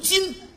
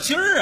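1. 这个词结尾没有儿化音。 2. 这个词结尾有儿化音。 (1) "正字读今" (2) "什么叫今儿啊？"

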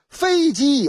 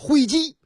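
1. 开头是f音，标准口音。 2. 开头是h音，南方口音。

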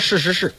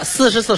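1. 这个数字念翘舌音 sh。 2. 这个数字念平舌音 s。

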